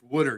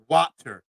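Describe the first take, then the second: First: It is said in a local, non-standard way. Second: It is said with standard, careful pronunciation. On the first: The speaker calls it right. "That's how you say it" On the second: The speaker calls it wrong. "stop with your proper pronunciation"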